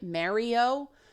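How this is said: The name is said with a Canadian English pronunciation. It fits in with local English speech. "trying to adapt to the Canadian pronunciation"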